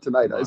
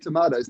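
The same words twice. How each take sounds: First: The word is said with an American pronunciation. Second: The word is said with an Australian pronunciation. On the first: "not tomatoes" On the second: "So we say tomatoes"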